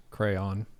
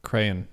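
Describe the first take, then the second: First: Crayon said as cray-on, two syllables, second rhymes with dawn. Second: Crayon squeezed into one syllable, cran. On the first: Showing the quiz how she says crayon, in two syllables. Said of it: "Two syllables". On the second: Showing the quiz the other way to say crayon, one syllable. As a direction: Crayon clipped to a single syllable. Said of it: "One syllable". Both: Shown as a demonstration.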